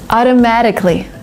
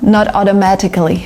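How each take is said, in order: First: The T is softened into a D sound. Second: The T is pronounced as a clear T. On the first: The speaker calls it right. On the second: The speaker calls it wrong.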